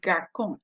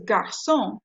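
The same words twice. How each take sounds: First: "garçon" mispronounced with a K, gar-kon; hard C. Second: "garçon" with an S sound, gar-son; soft C. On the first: Teacher showing it without the cedilla, hard K in "garçon". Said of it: "If it wasn't there". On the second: Teacher giving the correct word for boy, soft S in "garçon". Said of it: "we've gotta have the C D". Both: Shown as a demonstration.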